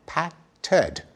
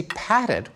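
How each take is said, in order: First: PATTED split in two, "pat ... ted"; "patted" with a pause before a full second syllable "ted"; added vowel shown. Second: Said in the usual way. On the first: Shown as a demonstration. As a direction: break "patted" apart to expose the vowel in ed. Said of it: "we stick in a vowel". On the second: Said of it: "And when we say".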